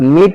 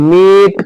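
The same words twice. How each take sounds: First: The vowel is short and clipped. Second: The vowel is long and drawn out. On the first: The speaker calls it wrong. "मीट नहीं पढ़ के" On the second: The speaker calls it right. "थोड़ा लंबा समय लगेगा"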